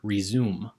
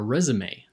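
First: It is said as ri-zoom. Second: It is said as rez-oo-may. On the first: The speaker calls it wrong. "not our resume" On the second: The speaker calls it right. "The accent marks are important"

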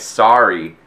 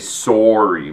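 First: The first vowel sounds like 'ah'. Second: The first vowel sounds like 'oh'. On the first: This is how Americans say it. "Americans say like sorry" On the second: This is how Canadians say it. "and we say sorry"

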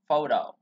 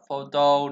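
First: The middle consonant is a soft d sound. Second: The middle consonant is a clear t sound. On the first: The speaker calls it right. "Từ này chuẩn của nó chúng ta phải đọc là photo. Chữ T này ... chuyển nó thành âm D" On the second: The speaker calls it wrong. "Từ này chúng ta hay đọc là photo, đúng không? Hay đọc theo kiểu là photocopy"

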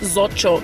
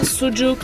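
First: It is said with German-style vowels, like zo-tschok. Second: It is said with Turkish vowels, like soo-jook.

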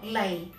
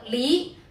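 First: The character is read with Cantonese pronunciation. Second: The character is read with Mandarin pronunciation. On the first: "粤语读离" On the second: "普通话读李"

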